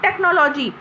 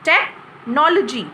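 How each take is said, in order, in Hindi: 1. यह शब्द बिना रुके आगे चलता है। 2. पहले अक्षर के बाद थोड़ा सा विराम आता है। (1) "this is not technology" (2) "टेक के बाद थोड़ा सा स्पेस होता है"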